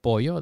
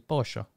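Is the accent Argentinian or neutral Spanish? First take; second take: neutral; Argentinian. First: It is said in neutral Spanish. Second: It is said with an Argentinian accent.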